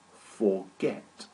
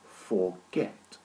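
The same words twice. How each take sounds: First: Forget repeated, stress on get, rising; two-syllable stress. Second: Forget with the second syllable stressed, rising; two-syllable stress. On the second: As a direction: lean on get in Forget. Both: Shown as a demonstration. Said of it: "this verb has two syllables".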